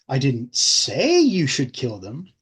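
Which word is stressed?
say. The word 'say' is stressed.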